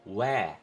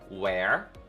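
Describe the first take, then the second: First: The final R is dropped, not pronounced. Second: The final R is clearly pronounced and curled. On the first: "no britânico não... A gente não enrola o R no final" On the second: "No inglês americano a gente tem esse R mais enrolado no final"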